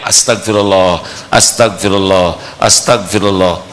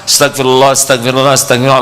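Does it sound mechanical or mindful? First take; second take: mindful; mechanical. First: It is said consciously, with attention. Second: It is rattled off mechanically, without attention.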